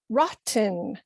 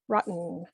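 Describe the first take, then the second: First: The middle T is fully pronounced. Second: The middle T is cut short before N. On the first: "as a new English speaker, pronounce it" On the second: "we are cutting that T short and then just adding N"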